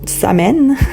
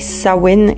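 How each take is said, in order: First: The middle consonant is pronounced as an M. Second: The middle consonant is pronounced as a W. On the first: The speaker calls it wrong. "et non Samhain" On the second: The speaker calls it right. "le M H est souvent prononcé comme un W, donc c'est bien Samhain"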